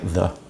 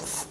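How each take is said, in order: First: The word is said in full with its vowel. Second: The word is clipped to a bare consonant. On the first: "They never used to say the" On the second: "It was always th"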